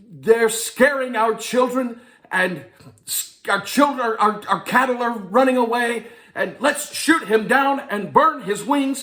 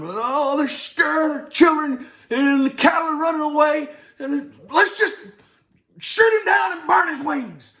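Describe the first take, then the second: First: Bad Amish accent. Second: High, loud farmer audition yell; high farmer shout. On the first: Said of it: "I had no idea how to do a Amish accent". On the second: Acted. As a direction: belt out the line high and loud like a frantic farmer. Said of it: "and I'm, and I'm".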